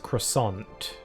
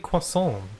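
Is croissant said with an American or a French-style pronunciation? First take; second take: American; French-style. First: The word has an American English pronunciation. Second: The word has a French-style pronunciation. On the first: "in America, most people pronounce croissant as croissant" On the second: "we just use the normal, like, sort of French pronunciation for it"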